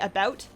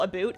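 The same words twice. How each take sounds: First: The word is said with a mild accent. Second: The word is said with a strong Minnesota accent. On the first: The speaker is carefully watching how it sounds. "I'm conscious of the fact that apparently I say it differently, I say about like that" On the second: The speaker is drunk, emotional or excited. "if I've been drinking or if I'm emotional or excited, I go full about"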